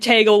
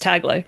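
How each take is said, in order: First: The name rhymes with bagel. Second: The name does not rhyme with bagel. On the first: The speaker calls it wrong. "everybody pronounced it like Tagle, like bagel" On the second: The speaker calls it right. "from what I looked up with the pronunciation, it's Tagle"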